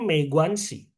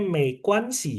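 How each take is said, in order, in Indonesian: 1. Huruf g pada guanxi terdengar seperti g bersuara. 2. Huruf g pada guanxi terdengar seperti k. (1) "Kalau aku sih bacanya Mei Guanxi" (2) "Kok mereka bacanya Mei Guanxi ya? Kenapa G-nya dibaca K?"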